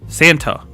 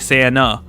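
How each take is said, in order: First: The T sound is clearly pronounced. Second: The T sound is dropped entirely. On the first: "With the T, right?" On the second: "I say Santa. I don't even pronounce the T in Santa"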